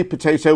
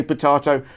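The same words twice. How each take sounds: First: "potato" with an AY middle vowel, poh-TAY-toh; American potato. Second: "potato" with a long AH middle, puh-TAH-toh; British potato. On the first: Cohost quoting the other country's way, potato as poh-TAY-toh. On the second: Cohost claiming his country's way, potato as puh-TAH-toh. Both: Shown as a demonstration. Contrasting the two pronunciations.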